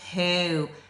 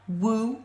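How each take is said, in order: First: The word begins with an h sound. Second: The word begins with a w sound. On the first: The speaker calls it right. "it's who" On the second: The speaker calls it wrong. "It's not woo"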